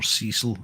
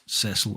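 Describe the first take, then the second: First: The name is said with an American pronunciation. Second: The name is said with a British pronunciation.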